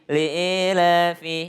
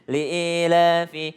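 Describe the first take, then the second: Both takes have the same delivery.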